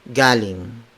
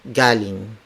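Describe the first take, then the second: The two takes are said the same way.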